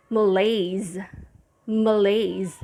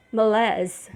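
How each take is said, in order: First: Malaise, muh-LAYZ, stress on LAYZ; English malaise ending LAYZ; English pronunciation. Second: Malaise in French, muh-LEZ; French malaise, open LEZ ending; French pronunciation. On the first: Teacher giving English pronunciation of malaise, stress on LAYZ. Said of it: "the English pronunciation is". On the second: Teacher contrasting French pronunciation of malaise. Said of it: "the French pronunciation for this word is". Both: Shown as a demonstration.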